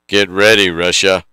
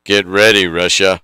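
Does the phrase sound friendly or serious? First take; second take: serious; serious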